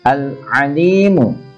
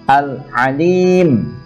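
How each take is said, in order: First: The word ends with a final 'u' vowel. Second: The word ends on 'm' with no vowel.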